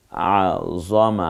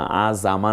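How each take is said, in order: First: আজমা, very slow, with the আইন pressed in the throat; slow correct Arabic. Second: আজামা with an added vowel after জ, the mistake; wrong extra vowel. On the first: Teacher models আজমা slowly for students. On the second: Teacher shows the wrong আজামা, extra vowel. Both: Shown as a demonstration. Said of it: "আজামা না".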